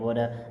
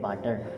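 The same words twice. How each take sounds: First: It has an American accent with a softened T. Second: It has a South Asian accent with a clear T. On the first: "American जो होते हैं वो ऐसे वाटर बोलते हैं" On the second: "तुम इसको जो भी प्रोनाउंस करोगे वाटर को वो बोलोगे वाटर"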